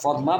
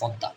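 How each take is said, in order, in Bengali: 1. মাঝখানটি স্পষ্ট m ধ্বনি দিয়ে উচ্চারিত হয়। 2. মাঝখানটি দ্বিত্ব d ধ্বনি হিসেবে উচ্চারিত হয়। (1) "ইংরেজিতে বলে ফদমা" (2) "বাংলায় বলে ফদ্দা"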